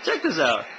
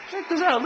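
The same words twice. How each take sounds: First: Said in the usual way. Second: Much higher, eager Check this out; excited. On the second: Real, not acted. Vlogger showing off to viewers, eagerly.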